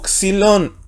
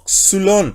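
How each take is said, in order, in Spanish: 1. El primer sonido de vocal es 'ee'. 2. El primer sonido de vocal es 'oo'. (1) "¿Por qué digo xilón" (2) "y no xulón?"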